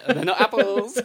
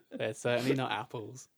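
First: Loud, high, laughing protest; cracking up as you object. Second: Said in the usual way. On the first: Real, not acted. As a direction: blurt it out through laughter. Laughing at his friend's crude joke.

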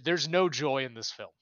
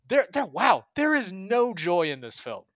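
First: Said in the usual way. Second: "there is no joy in this film" louder and higher, each word driven home; emphatic exclamation. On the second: Real, not acted. Emphatic repeat of own point.

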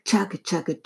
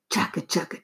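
First: Said in the usual way. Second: "Chugga, chugga" breathed in a voiceless whisper. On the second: A narrator's reading. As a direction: whisper "Chugga, chugga" like a distant train. Train sound, whispered take.

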